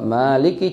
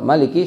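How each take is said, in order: First: The first vowel is said long. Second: The first vowel is said short. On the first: The word is counted with one extra letter. "seratus lima puluh enam" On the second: The word is counted with one letter fewer. "seratus lima puluh lima"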